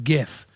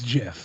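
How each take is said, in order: First: The word begins with a hard G sound. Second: The word begins with a J sound. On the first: It names the animated image format. "the motion image is GIF" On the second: It names the peanut butter brand. "the peanut butter is GIF"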